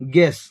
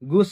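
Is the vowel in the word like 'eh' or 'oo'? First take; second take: eh; oo. First: The vowel sounds like 'eh'. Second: The vowel sounds like 'oo'. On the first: The speaker calls it right. "ଏଟା ଗେସ୍" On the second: The speaker calls it wrong. "ଗୁସ୍ ବୋଲି ପଡିବନି"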